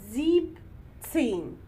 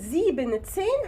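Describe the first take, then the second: First: The first part ends without an 'n' sound. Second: The first part ends with an 'n' sound. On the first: The speaker calls it right. "هنقول زيب تسين" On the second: The speaker calls it wrong. "بدل ما نقول زيبن تسين"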